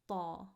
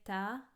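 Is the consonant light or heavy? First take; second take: heavy; light. First: The consonant sounds heavy, with the tongue back raised. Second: The consonant sounds light, with the tongue back lowered. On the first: "lift up the back of our tongue in the middle of our tongue, it turns into ta" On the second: "the sound is light and not heavy"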